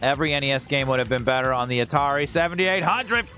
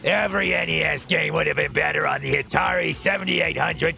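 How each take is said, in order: First: It is said in his normal voice. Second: It is said in a Crunchy the Clown voice.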